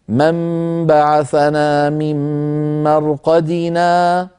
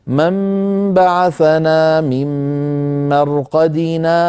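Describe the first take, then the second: First: Slow chanted recitation, stopping fully on مرقدنا; recitation with full stop. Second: Slow chanted recitation with a short silent pause after مرقدنا, no breath; recitation with saktah. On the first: Teacher shows stopping and breathing, in slow chanted recitation. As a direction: chant it slowly and come to a real stop at مرقدنا. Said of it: "أن نقول هكذا". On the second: Teacher shows the brief pause, in slow chanted recitation. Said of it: "فيسكت قليلًا هكذا". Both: Shown as a demonstration.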